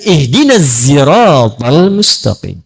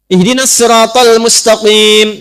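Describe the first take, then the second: First: The s in sirat is voiced like z. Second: The s in sirat is emphatic and heavy. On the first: "Maka turun riwayat pakai zai"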